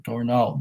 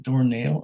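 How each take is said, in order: First: Second syllable of Dornall with an open "ah"; Dornall without I. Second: Second syllable of Dornall rhyming with "nail"; Dornall with long A. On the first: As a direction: say Dornall as "dor-NAHL". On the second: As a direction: say Dornall as "dor-NAYL". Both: Shown as a demonstration. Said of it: "I don't think that's an I".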